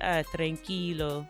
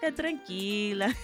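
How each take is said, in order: First: It is said with a stiff, flat rhythm. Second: It is said with a flowing Caribbean rhythm.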